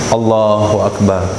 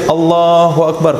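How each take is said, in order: First: The pitch stays level through the final word. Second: The pitch sinks downward through the final word. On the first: The opening words are finished before bowing down. The speaker calls it right. "takbiratul ihram harus lurus" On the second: The opening words are said while already bowing down. The speaker calls it wrong. "ke bawah ke bawah, terbawa ke bawah takbirnya, batal juga"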